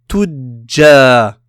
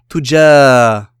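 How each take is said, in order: First: The j sound is held and doubled. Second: The j sound is short and single. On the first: The speaker calls it right. "mais en retenant, ce qui donnera tudja" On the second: The speaker calls it wrong. "et non pas tuja"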